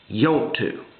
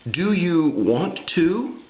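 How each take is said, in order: First: It is run together in a Southern way. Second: It is said fully in a Yankee way.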